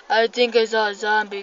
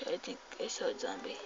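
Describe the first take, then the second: First: Said in the usual way. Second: Hushed, very fast murmur; quiet nervous aside. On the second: Real, not acted. Player spots a zombie, quiet hurried aside. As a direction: say it fast under your breath. First take, low to self.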